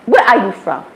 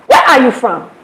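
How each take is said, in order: First: Said in the usual way. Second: Mock-aggressive demand, a touch punchy; imitated aggressive question. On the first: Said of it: "And they say it so aggressive". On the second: Uber driver questions an unfamiliar passenger, imitated as mildly aggressive. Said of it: "they say it so aggressive, like".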